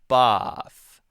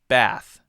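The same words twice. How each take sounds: First: A British accent, with the vowel further forward. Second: An American accent, with the vowel further back. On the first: "British person might say bath" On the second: "Americans will say bath"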